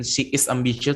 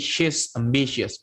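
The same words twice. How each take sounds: First: She is ambitious with she and is said apart; separated she is. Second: She's ambitious run together as one word; contracted she's. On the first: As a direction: say she is as two separate words. (she is diucapkan terpisah) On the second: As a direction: blend she's into a single syllable. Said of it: "tapi she's ambitious". (she's digabung jadi satu suku kata) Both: Shown as a demonstration.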